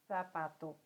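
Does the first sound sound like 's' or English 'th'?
th. The first sound is a 'th' sound. This is how it is said in parts of Spain. "como se fosse o T H do inglês"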